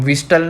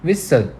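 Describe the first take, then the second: First: Whistle with the T sounded; wrong pronunciation. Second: Whistle with a silent T; correct pronunciation. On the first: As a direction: say whistle with a clear T in the middle. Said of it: "नहीं बोलते". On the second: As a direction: say Whistle as wissel, no T. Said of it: "हम क्या बोलते हैं?". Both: Shown as a demonstration.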